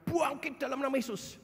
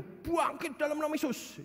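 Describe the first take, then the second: First: Imitated prayer. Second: A hint of a fervent preacher, higher; imitated prayer. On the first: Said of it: "Ya, kira-kira". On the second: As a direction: lightly voice the praying pastor. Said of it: "memang doanya gitu".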